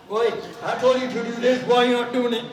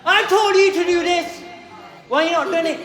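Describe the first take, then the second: First: Mock angry dad. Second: Furious shout, higher and much louder; shouting at a kid who didn't do the job; angry telling-off. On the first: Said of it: "If your dad shouted at you, you say". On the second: Retold or imitated. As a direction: yell it like a fed-up teacher. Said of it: "are you gonna get shouted at?".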